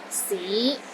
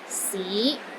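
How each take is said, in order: First: The pitch rises from low to middle. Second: The same.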